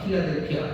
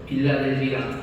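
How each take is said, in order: First: It starts with a strong, aspirated p sound. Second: It starts with a soft, unaspirated b sound. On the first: The speaker calls it right. "이렇게 읽으시면 돼요" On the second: The speaker calls it wrong. "발음이 안 돼요"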